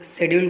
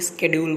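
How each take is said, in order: First: It is said with a British accent. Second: It is said with an American accent.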